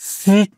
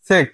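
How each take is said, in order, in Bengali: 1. স্বরধ্বনিটি দীর্ঘ, পূর্ণ 'ee' ধ্বনি। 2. স্বরধ্বনিটি ছোট, 'i' আর 'e'-র মাঝামাঝি। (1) "সিক না" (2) "এভাবে উচ্চারণ করতে হবে"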